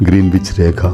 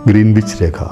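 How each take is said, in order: The two takes are said the same way.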